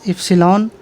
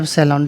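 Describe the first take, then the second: First: The word is said in its careful form. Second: The word is said in its casual form. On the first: This is the exact name of the letter. "Exact name क्या इप्सिलॉन है, ई को थोड़ा सा घुमाना है" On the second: This is the everyday form used in quick speech. "जल्दी जल्दी बोलने में क्या एप्सिलॉन भी बोल देता है"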